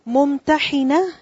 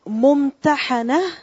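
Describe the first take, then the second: First: The vowel before the final n is i. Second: The vowel before the final n is a. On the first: It is the one who tests. "ممتحنة is one that puts to test" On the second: It is the one who is tested. "she who is examined or she who is put to test"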